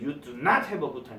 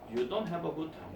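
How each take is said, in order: First: It is said in a stern, forceful tone. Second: It is said in a plain, neutral tone.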